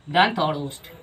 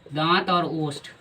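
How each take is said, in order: First: Said in the usual way. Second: Slow, careful teacher dictation of दांत और ओष्ठ. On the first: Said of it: "sorry, ठीक है, दंत और ओष्ठ". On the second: Shown as a demonstration. Teacher dictating दांत और ओष्ठ to students, slow and deliberate. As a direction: spell out दांत और ओष्ठ slowly so students can write. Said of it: "मतलब इसका हिंदी में दंत".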